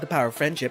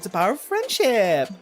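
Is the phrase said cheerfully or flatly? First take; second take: flatly; cheerfully. First: It is said in a flat, plain way. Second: It is said in a bright, gushing way. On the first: The speaker calls it wrong. "You're not saying it right" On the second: The speaker calls it right. "speaking with that many rainbows"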